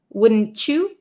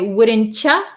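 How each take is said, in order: First: The final word is a full 'you'. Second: The final word is reduced to 'cha'.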